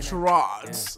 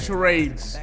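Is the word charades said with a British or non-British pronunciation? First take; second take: British; non-British. First: The word has a British pronunciation. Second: The word has a non-British pronunciation.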